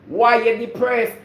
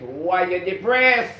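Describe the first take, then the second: First: Louder why you depressed. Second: Slow why you depressed. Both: Real, not acted.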